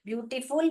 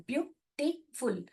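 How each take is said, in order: First: Said in the usual way. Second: ब्यूटीफुल slow and softer, in three separate syllables. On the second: Shown as a demonstration. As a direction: count out ब्यूटीफुल as byu, ti, ful with gaps between. (ब्यूटीफुल को धीरे से, तीन टुकड़ों में अलग-अलग) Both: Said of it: "तीन बार बोल रहे हैं".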